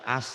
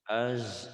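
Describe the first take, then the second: First: The syllable ends with a voiceless s sound. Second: The syllable ends with a voiced z sound. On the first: The speaker calls it wrong. "jangan as" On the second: The speaker calls it right. "Az jangan as ya"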